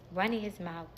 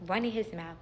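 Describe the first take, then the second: No difference in how they are said.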